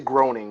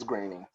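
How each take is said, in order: First: The first vowel sounds like 'grow'. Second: The first vowel sounds like 'gray'. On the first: The speaker calls it wrong. "I always say groaning" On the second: The speaker calls it right. "but it's it's graining"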